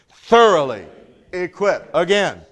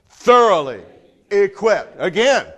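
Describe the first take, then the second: Both takes have the same delivery.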